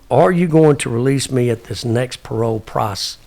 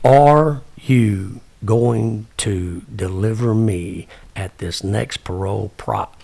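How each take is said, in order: First: It is said at a normal, quick pace. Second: It is said slowly and deliberately.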